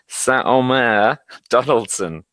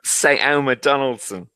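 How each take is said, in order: First: The name is said with a French accent. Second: The name is said with a London English accent. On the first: "there was the French accent there" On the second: "what's the London version?"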